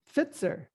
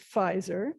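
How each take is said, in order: First: The name is said with a German pronunciation. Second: The name is said with an English pronunciation. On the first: "the Germans would pronounce this" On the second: "we would pronounce it"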